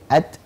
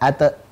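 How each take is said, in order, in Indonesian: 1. t akhir dilepas dengan hembusan. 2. t akhir dilepas dengan sentakan. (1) "tapi at, it, ut" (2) "tidak ada at, it, ut"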